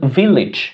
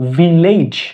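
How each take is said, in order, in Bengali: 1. শেষটা 'ij'-এর মতো উচ্চারিত হয়। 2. শেষটা 'aij'-এর মতো উচ্চারিত হয়। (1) "লিজ হবে" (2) "আমরা আগে বলতাম ভিলেজ, এটা আসলে হবে লেইজ হবে না"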